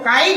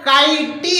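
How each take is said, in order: First: The word ends sharply on the t sound. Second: An ee sound is added after the final t. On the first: The final e stays silent. The speaker calls it right. "मगर सही जो शब्द है वो काइट है" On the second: The final silent e is wrongly pronounced. The speaker calls it wrong. "यदि वावेल ई का उच्चारण होता तो क्या हो जाता? काइटी होता"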